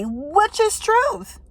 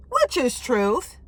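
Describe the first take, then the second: First: High, slow sing-song. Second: Said in the usual way. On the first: Shown as a demonstration.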